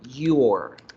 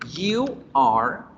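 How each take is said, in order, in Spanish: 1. Se acorta en una sola sílaba contraída. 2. Se pronuncian dos palabras completas separadas.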